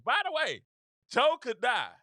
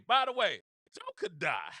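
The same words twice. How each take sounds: First: High, loud, punchy teasing tagline; teasing slogan. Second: Said in the usual way. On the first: Shown as a demonstration. Pitching a campaign slogan to Republicans, teasing. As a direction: sing out the slogan to the room, louder. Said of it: "I gotta tease it". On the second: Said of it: "that's my slogan".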